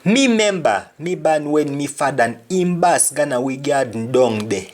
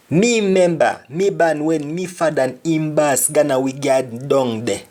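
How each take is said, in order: First: Lively Jamaican patois demo. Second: Jamaican patois. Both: Shown as a demonstration. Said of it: "Another example".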